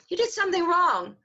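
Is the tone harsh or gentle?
gentle. It is said in a gentle, uplifting tone.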